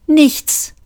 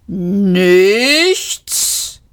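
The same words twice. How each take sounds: First: "Nichts" high, short and falling; curt answer. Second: "Nichts" stretched long, swelling and rising; war machine roaring "Nichts", climbing at the end; roaring disbelief. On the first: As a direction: say "Nichts" as one quick falling word. Marvin's curt answer before machine's roar. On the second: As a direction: bellow "Nichts" as an incredulous drawn-out question. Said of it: "röhrte die Kampfmaschine". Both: A narrator's reading.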